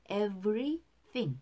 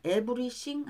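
First: "Everything" slowly, with a true V and TH; careful English pronunciation. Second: "everything" as e-beu-ri-shing, B for V; Koreanized pronunciation. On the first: Teacher corrects the title word, "Everything" with V and TH. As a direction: separate "Every" and "thing", sounding V and TH cleanly. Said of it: "제목부터 틀리면". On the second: Teacher shows the mistake to avoid, "everything" as ebeurishing. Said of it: "하면 안 돼요". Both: Shown as a demonstration.

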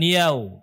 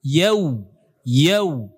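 First: "yau" ending on o, like "yao"; o ending, wrong. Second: "Yau" with the lips rounded to a clear w at the end; full waw. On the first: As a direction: say "yau" without completing the w. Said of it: "bukan yau". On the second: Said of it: "tetapi dengan waw". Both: Shown as a demonstration.

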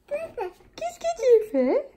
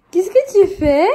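First: Very high, slow sing-song with a laugh. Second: Louder playful question to the little one; playful ask. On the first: Mother teasingly repeats her question to her son, high slow cooing. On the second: Mother catches her son at mischief, loud playful question. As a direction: ask him out loud what he's up to. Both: Real, not acted.

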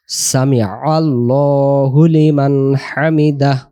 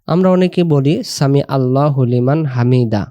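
First: হামিদাহ ending in an audible breathy h; slow recitation with the final h of হামিদাহ sounded; সামি আল্লাহু লিমান হামিদাহ with a clear closing h. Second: Said in the usual way. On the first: Shown as a demonstration. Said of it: "হায়ের উচ্চারণ টেনে ভেসে ওঠাতে হবে". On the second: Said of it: "হামিদা যদি পড়ি ... হায়ের কোনো উচ্চারণ আসতেছে না".

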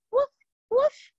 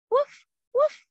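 First: Tiny high woof woof like a small puppy; little bark. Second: High yappy woof woof, fuller than the little one; bigger bark. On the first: Teacher asks kids for a little bark, tiny high yip. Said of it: "little bark this time". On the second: Teacher leading kids in a full puppy bark. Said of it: "and bark". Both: Pretend.

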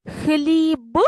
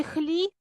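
First: "Хліб" with a clearly voiced final б; voiced ending. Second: "хліб" ending in п instead of б; devoiced ending. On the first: Teacher offering pupils the first choice, voiced ending. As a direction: sound out the б at the end of "Хліб". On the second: Teacher offering pupils the second choice, devoiced ending. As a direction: end "хліб" on a voiceless, puffed п. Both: Shown as a demonstration. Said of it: "чи хліб?".

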